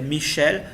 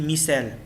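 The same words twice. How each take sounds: First: The name is said with a French pronunciation. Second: The name is said with a Lao pronunciation. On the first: "en français c'est Michel" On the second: "en lao on dit Michel"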